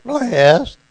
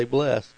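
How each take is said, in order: First: Loud, high mock Texas "blessed"; Abilene Texas accent. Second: Said in the usual way. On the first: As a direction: mimic the Abilene accent, big and raised. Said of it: "unless I said". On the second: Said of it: "And so I'd say".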